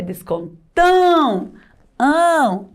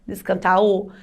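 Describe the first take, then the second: First: "descontão" with a long, resonant nasal ão; nasal sound. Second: "Descantal" ending in an oral au; missing tilde. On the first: Teacher correcting the word for pupils, nasal ão. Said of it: "Sonzinho anasalado". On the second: Teacher repeating the nonexistent word, oral au. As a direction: say "Descantal" with a non-nasal ending. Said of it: "se esqueceu o tio". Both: Shown as a demonstration.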